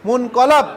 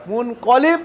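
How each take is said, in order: First: মুনকলাব with an open a vowel in the last syllable, "-lab"; মুনকলাব, the a sound opened wide; passive form. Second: মুনকলিব with a clear i vowel in the last syllable, "-lib"; মুনকলিব, the i sound held clear; active form. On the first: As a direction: say মুনকলাব ending in "lab", the one returned to. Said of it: "যার দিকে প্রত্যাবর্তন হয়". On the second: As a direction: say মুনকলিব ending in "lib", the one who returns. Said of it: "যিনি প্রত্যাবর্তন করেন". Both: Shown as a demonstration.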